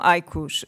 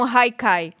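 First: "haikus" ending in a "ku" sound; correct haikus. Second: Others used to say it wrong, haikus as "haikai", ending in "kai"; "haikai" with the last syllable rhyming with "ai"; mispronounced haikus. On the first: Shown as a demonstration. Speaker corrects what people said, "haikus" ending in "kus". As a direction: say "haikus" with "kus" as the last syllable, not "kai". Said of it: "muitas das vezes diziam haikai". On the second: Retold or imitated. Speaker quotes how people said haikus, "haikai" ending in a "kai" sound. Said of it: "diziam haikai e não haikus".

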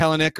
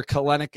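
First: Kelenic with the first syllable stressed; KEL-en-ick, trying out the name; alternative pronunciation. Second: Kelenic with the second syllable stressed; kuh-LEN-ick, offered as the other option; alternative pronunciation. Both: Shown as a demonstration. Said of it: "Kelenic or Kelenic".

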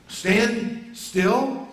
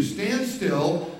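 First: Incredulous question. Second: Said in the usual way. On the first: Shown as a demonstration. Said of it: "It's what he's telling us to do". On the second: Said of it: "It's what God is telling you to do".

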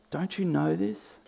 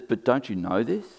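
First: High, soft sarcastic question; quietly needling, pitched up. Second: Lightly sarcastic question at usual pitch; understated sarcasm, rising at the end. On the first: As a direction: repeat it higher and softer, feigning disbelief. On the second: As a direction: challenge them with mild mock disbelief. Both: Retold or imitated. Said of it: "can you hear the sarcasm in that".

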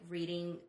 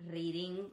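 First: Said in the usual way. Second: "reading" with a rolled R. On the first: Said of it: "we roll the R's, like, instead of". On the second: Shown as a demonstration. Friend showing mom's Brazilian accent, rolled R in "reading". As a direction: roll the R at the start of "reading". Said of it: "we roll the R's".

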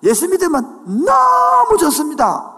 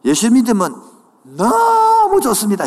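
First: 너무 stretched long, loud and high; stress on 너무. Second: Said in the usual way. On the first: Shown as a demonstration. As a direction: lean hard on 너무 and hold it. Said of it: "다시 한번 더". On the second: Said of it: "악센트가 없네".

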